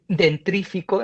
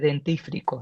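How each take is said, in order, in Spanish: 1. El sonido r va justo después de la t. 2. El sonido r va justo después de la f. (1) "ejemplo que en español podemos tener" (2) "en lugar de"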